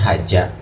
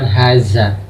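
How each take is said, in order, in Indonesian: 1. Konsonan tengahnya adalah bunyi 'j'. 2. Konsonan tengahnya adalah bunyi 'z'. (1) "atau bukan haja" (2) "bukan haza"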